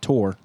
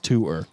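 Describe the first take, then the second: First: The word sounds exactly like 'tore'. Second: The word does not sound like 'tore'. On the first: The speaker calls it wrong. "It's not tour. That's T O R E" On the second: The speaker calls it right. "This is tour"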